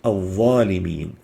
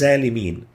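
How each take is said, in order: First: The first consonant is a deep emphatic dh. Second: The first consonant is a plain z sound. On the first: The speaker calls it right. "The proper way is to pronounce it" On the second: The speaker calls it wrong. "or with a zain sounding like"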